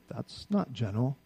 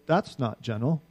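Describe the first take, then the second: First: Slow and soft; pointed verdict on the president, soft and slow; softer verdict. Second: Said in the usual way. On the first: Shown as a demonstration. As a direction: let it drop quietly and slowly. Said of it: "I can look at our president and say". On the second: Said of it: "I can look at Rehoboam and say".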